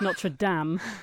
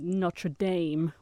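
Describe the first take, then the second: First: It is said with a French pronunciation. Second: It is said with an American pronunciation. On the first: The speaker calls it right. "when clearly it's Notre Dame" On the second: The speaker calls it wrong. "the way that the Americans say Notre Dame"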